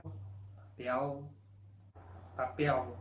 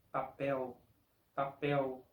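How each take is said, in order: First: "papel" ending on a dark l; "papel" with the final l kept but softened; Portuguese "papel" with l. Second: "papel" said pa-peu, final l as a u; "papel" ending in a u glide. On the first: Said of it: "donde la L tiene sonido de L". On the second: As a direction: Brazilian "papel" with vocalized l. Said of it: "sonido de U". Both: Shown as a demonstration.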